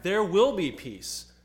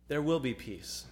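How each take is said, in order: First: Louder, slower, lifted on "will" in "there will be peace"; proclaimed. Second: Said in the usual way. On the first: Shown as a demonstration.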